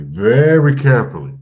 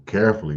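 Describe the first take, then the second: First: "very carefully" with "very" pushed loud and high; emphatic very. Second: Said in the usual way. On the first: Shown as a demonstration. Teacher urging the class to move with care, "very" punched loud. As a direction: lean hard on "very" in "very carefully".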